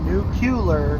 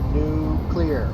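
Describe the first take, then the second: First: The word is said differently from its spelling. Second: The word is said as it is spelled. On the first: The speaker calls it wrong. "Not nuclear" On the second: The speaker calls it right. "It's literally how the word is spelled"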